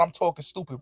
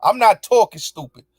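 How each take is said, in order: First: Softer, scornful echo of her words; scoffing murmur of the claim; mocking echo. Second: Not hit firmly against the echo; firm denial with not stressed. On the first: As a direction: repeat her accusation under your breath. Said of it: "The fuck you talking about?". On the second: Real, not acted. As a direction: punch the word not in denial.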